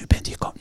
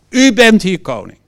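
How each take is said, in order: First: The phrase is said quietly and timidly. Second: The phrase is said loudly and boldly. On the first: The declaration is made without conviction. The speaker calls it wrong. "Dus niet zo" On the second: The declaration is made for everyone to hear. The speaker calls it right. "Iedereen kon dat horen"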